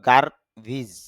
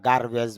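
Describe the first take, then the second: First: The last syllable has an 'i' vowel. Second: The last syllable has an 'e' vowel. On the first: The speaker calls it right. "তবে তার শুদ্ধ উচ্চারণ হলো গার্বিজ" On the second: The speaker calls it wrong. "গ্যারবেজ বা গার্বেজ বলি"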